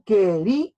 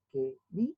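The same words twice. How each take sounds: First: "Quería" with the stress landing hard on "rí", a little louder; "Quería" spoken whole, stress on the "í"; said with three beats. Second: "Quería" broken into que-rí-a, softer; "Quería" split into its three syllables, one beat each. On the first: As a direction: say "Quería" as one word, leaning on the "rí". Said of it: "Claramente hay tres golpes de voz". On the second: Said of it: "Se separará de esta manera". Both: Shown as a demonstration.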